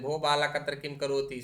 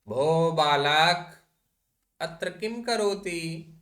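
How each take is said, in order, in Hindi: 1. यह जल्दी पढ़ा जाता है, सब शब्द एक साथ जुड़े हुए। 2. यह धीरे पढ़ा जाता है, संबोधन के बाद एक विराम के साथ। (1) "समझ में ही नहीं आएगा" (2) "ये भो बालक संबोधन में है"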